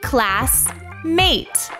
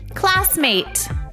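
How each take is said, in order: First: The two syllables are split by a pause. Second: The two syllables run together without a pause. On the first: The word is being sounded out in parts. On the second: The parts are put together into one word.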